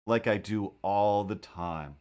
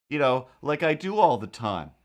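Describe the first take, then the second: First: Slow, dry aside to himself; dry deadpan. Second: Said in the usual way. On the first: Shown as a demonstration. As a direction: let the sarcasm sink in slowly. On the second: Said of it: "I'll just lift a car".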